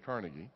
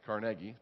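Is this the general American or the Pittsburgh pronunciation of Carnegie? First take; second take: general American; Pittsburgh. First: The name is said the common general way. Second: The name is said the Pittsburgh local way. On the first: This is how most people say the name. "but most people say Carnegie" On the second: This is how people in Pittsburgh say the name. "When I lived in Pittsburgh for a while, they corrected me, it's Carnegie"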